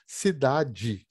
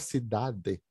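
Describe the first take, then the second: First: The ending is a 'dji' sound. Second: The ending is a plain 'de' sound. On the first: "Você transforma o E no final em I, e além disso, pega o D e faz ele virar DI" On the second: "não vai falar cidade"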